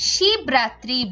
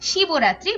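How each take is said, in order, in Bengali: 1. 'b' বন্ধ, এর পরে কোনো স্বরধ্বনি নেই। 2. 'b'-এর পরে 'o' স্বরধ্বনি উচ্চারিত হয়। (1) "আমরা এটাকে শিবরাত্রি বলি" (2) "শিবরাত্রি বলি না"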